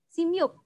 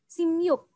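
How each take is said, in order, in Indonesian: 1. Suku kata pertama diakhiri bunyi m. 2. Suku kata pertama diakhiri bunyi m.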